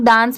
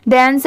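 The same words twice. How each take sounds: First: डांस with a long "aa", as "daans"; common pronunciation. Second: डांस with a short "e" vowel, as "dens"; correct pronunciation. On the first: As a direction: say डांस with an open "ah" vowel. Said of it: "बहुत सारे लोग डांस pronounce करते हैं". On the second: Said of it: "इसकी correct pronunciation है". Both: Shown as a demonstration.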